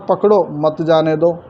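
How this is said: Pakdo stands alone; the pause follows pakdo.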